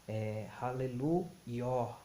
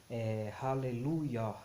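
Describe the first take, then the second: Both takes have the same delivery.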